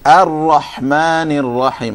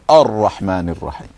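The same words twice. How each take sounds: First: The opening vowel is light and flat. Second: The opening vowel is heavy and full-mouthed. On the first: The speaker calls it right. "The hamza is normal" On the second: The speaker calls it wrong. "what you shouldn't do is start with a"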